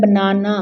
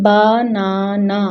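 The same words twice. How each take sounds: First: Said in the usual way. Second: "banana" slowly as ba, na, na; split into syllables. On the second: Shown as a demonstration. Teacher showing pupils three chin drops, split into syllables. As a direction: stretch "banana" into three separate beats. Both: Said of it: "so we chin drop three times".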